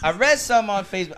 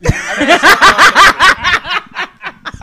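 First: Said in the usual way. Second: Loud, slow, laughing through it; cracking up while repeating it. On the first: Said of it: "shut up". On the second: Real, not acted.

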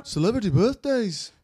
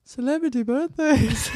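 First: A light attempt at a Liverpool accent, pitched higher. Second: Put-on Liverpool accent through a laugh, pitched higher. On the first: Asked by cohost to say it like the Beatles, Liverpool accent. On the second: Cohost tries the Beatles Liverpool voice while laughing. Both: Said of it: "but with the Beatles sound again".

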